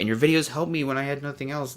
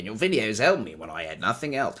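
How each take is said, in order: First: It is read sincerely in a natural accent. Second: It is read in an exaggerated Australian accent. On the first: The message is taken seriously. The speaker calls it right. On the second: The message is being mocked. The speaker calls it wrong. "I said that in a cartoon Australian voice"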